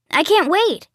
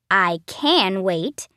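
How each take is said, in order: First: High, eager squeal of anticipation; bursting with excitement. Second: Slow, reluctant drag on the words; unenthusiastic. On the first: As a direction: say it like you're thrilled and can barely hold it in. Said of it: "I'm so excited that I'm about to explode". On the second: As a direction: stretch it out like you dread going. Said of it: "only his voice clearly meant". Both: A narrator's reading.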